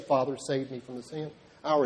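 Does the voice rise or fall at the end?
fall. It is said as a statement, falling.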